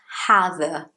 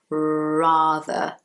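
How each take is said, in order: First: The word begins with a breathy H sound. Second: The word begins with a curled-tongue R sound. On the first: The speaker calls it wrong. "It's not hather" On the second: The speaker calls it right. "My tongue is like rolled. So you would say, for example"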